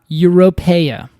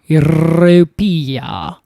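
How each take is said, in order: First: It is said in his ordinary everyday accent. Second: It is said in an affected, put-on accent.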